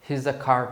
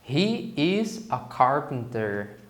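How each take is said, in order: First: He and is are joined into one syllable. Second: He and is are said as two separate words. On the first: "na forma contraída" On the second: "na forma normal"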